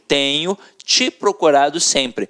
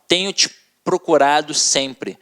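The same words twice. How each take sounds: First: 'Te' is joined to 'procurado', not to 'tenho'. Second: 'Te' is joined to 'tenho', not to 'procurado'.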